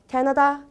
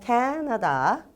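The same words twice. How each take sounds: First: The pitch stays flat at the end. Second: The pitch rises at the end. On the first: The speaker calls it wrong. "그냥 캐나다 이렇게 읽어주는 게 아니라" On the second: The speaker calls it right. "캐나다 하고 올려주시고요"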